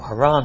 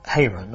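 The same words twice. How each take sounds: First: Haran said as huh-RAHN; second-syllable stress Haran. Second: Haran said as HAY-run; first-syllable stress Haran. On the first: Preacher offering another way to say a place name, Haran as huh-RAHN. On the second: Preacher offering one way to say a place name, Haran as HAY-run. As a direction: say Haran with a long "ay", stressed up front. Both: Shown as a demonstration. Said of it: "however you say it".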